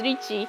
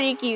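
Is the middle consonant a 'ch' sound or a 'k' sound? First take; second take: ch sound; k sound. First: The middle consonant is a ch sound. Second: The middle consonant is a hard k sound. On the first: The speaker calls it right. "it's Ricci" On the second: The speaker calls it wrong. "It's not Ricky"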